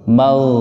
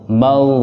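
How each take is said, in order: No difference in how they are said.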